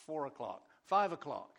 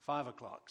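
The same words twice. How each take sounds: First: Loud, bright call to the room. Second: Said in the usual way. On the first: Real, not acted. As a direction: call it out like an auction bid. Calling out prayer time slots.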